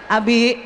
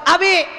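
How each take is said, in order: First: The name is called at normal pitch. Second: The name is called at a very high pitch.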